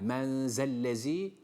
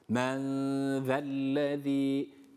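First: The consonant is a sharp z sound. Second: The consonant is a lisped th-like sound. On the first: The speaker calls it wrong. "Bu keskin değildir. Yani men zellezî doğru okuyuş olmaz" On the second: The speaker calls it right. "her iki peltek olan V harfine dikkat edeceğiz"

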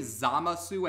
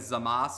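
First: The final vowel is clearly pronounced. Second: The final vowel is left out.

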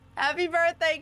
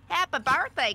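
First: It is said in the speaker's natural voice. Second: It is said in Lotta's put-on character voice.

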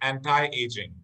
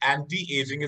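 First: The t in anti is said lightly. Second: The t in anti is said fully, like tee. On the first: The speaker calls it right. "it's pronounced as anti-aging. ... टी मत बोला करो, हल्का सा ट की आवाज आती है इसमें" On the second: The speaker calls it wrong. "the word is not anti-aging"

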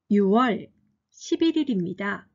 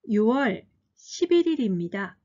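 The two takes are said the same way.

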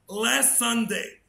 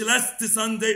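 First: The t at the end of last is dropped. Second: The t at the end of last is pronounced. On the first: The speaker calls it right. "بص التي اللي في الآخر دي بناكلها" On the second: The speaker calls it wrong. "تقولش last Sunday"

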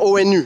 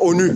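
First: Each letter is pronounced separately. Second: The letters are read together as one word. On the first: It is treated as a set of initials. "on n'est pas obligé de dire ONU" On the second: It is treated as an acronym. "on peut dire ONU"

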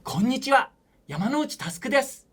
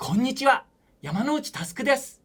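First: It is voiced as a neat, well-behaved student. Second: The same.

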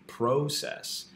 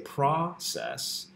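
First: The first vowel is a long 'oh' sound. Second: The first vowel is a short 'ah' sound. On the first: This follows the open-syllable spelling rule. "the vowel sound within the syllable is going to be a long sound. So the O should be process" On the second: This is the speaker's own everyday pronunciation. "I say process, but the O in the first syllable, pra"

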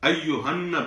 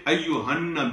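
The two takes are said the same way.

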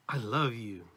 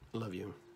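First: It is said warmly, with a smile. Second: It is said flatly, without emotion.

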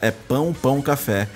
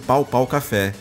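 First: The first two words have a nasal vowel. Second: The first two words have an oral vowel. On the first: "Mas na verdade, galera, é Pão Pão Café" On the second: "eu sempre falei"

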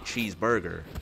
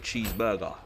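First: It is said in an American accent. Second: It is said in a non-American accent. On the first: "How you lot say, you say cheeseburger" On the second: "I say cheeseburger"

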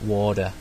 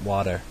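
First: It is said in an American accent. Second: The same.

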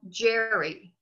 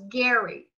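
First: The name begins with a j sound. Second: The name begins with a hard g sound. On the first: This is how it is said today. "they pronounce it now Jerry" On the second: This is how it was said in his own time. "in his time, was Gary"

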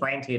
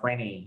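First: The t sound after the n is pronounced. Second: The t sound after the n is dropped.

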